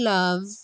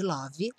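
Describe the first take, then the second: First: The word ends on the V consonant. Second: The word ends with an added vowel sound. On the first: The speaker calls it right. "sem o som do E" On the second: The speaker calls it wrong. "nada de love"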